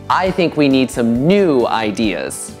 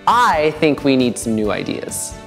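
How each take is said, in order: First: The word "new" carries the strongest stress. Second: The word "I" carries the strongest stress. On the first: The ideas needed must be fresh ones. "感觉是那个 new，所以我们需要新的 idea。" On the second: Only this person holds the opinion. "so it's me. Nobody else thinks it"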